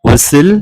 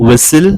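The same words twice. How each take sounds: No difference in how they are said.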